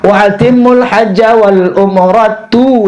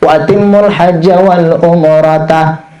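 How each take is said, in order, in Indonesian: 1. Kata terakhir berakhir dengan vokal 'u'. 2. Kata terakhir berakhir dengan vokal 'a'. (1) "kena umrata sunatun" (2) "ulama bisa baca nasab baris atas"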